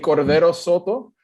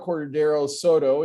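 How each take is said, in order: First: The name is said with a Spanish accent. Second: The name is said with an English accent. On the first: "with my original hometown pronunciation" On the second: "if you say it with the very uh, uh, Anglican pronunciation"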